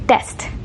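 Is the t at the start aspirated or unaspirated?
unaspirated. The first t has no puff of air. "In Indian English ... you might hear"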